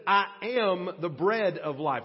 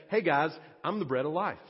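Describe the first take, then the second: First: "I am the bread of life" with weight on "I"; solemn "I am the bread of life"; emphatic declaration. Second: Quick casual "Hey guys, I'm the bread of life"; offhand, breezy "I'm the bread of life"; low-key, relaxed. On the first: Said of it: "what Jesus is really saying". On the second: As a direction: toss it off like a friendly aside. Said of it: "in a really low-key, kind of relaxed manner". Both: Shown as a demonstration.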